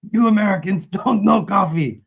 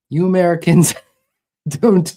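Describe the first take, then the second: First: Higher, louder hammed-up Iron Sheik style accent with a laugh. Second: Higher, louder, breaking into laughter mid-line; cracking up mid-quote. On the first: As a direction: ham it up like an eighties wrestling heel with an Iron Sheik accent. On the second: Acted. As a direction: try the accent and lose it to a laugh. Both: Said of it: "like the eighties W W F Iron Sheik accent".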